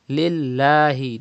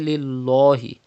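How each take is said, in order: First: The l sound is thin and light. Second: The l sound is thick and heavy. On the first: The speaker calls it right. "read the lam of Allah's name in a thin tone" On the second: The speaker calls it wrong. "Do not say Lillahi"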